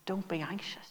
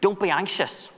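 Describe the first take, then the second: First: It is said in a warm, comforting tone. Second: It is said in a harsh, scolding tone. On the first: The listener is being reassured and supported. The speaker calls it right. "more he's coming alongside" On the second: The listener is being told off for worrying. The speaker calls it wrong. "he's not somehow scolding these believers, saying, you know, don't be anxious"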